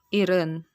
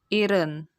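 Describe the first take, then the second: First: The middle consonant sounds like a single r. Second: The same.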